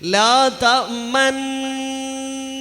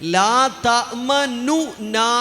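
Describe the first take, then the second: First: The two n sounds merge into one doubled n. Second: A short u vowel separates the two n sounds. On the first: "ലാ തഅ്മന്ന എന്നാണ് ഇതുവരെ നമ്മൾ ഓതിയത് പലരും. അങ്ങനെയല്ല" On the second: "ലാ തഅ്മനു ന എന്നായിരുന്നു പദം"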